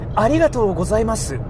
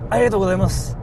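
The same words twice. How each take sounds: First: Every syllable is pronounced fully and carefully. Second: Some syllables are reduced in a relaxed way. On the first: The speaker comes across as well-mannered and careful. "enunciating every syllable as possible" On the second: The speaker comes across as a casual guy. "you sound like a casual dude"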